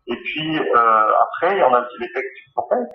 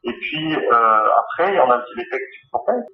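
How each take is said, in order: Both takes have the same delivery.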